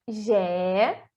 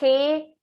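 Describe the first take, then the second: First: It starts with a buzzing 'zh' sound. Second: It starts with a raspy throat sound. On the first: This is the Portuguese pronunciation. "o som do J" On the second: This is the Spanish pronunciation. "Ele vem da garganta"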